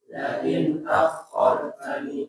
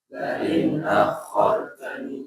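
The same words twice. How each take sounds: The two takes are said the same way.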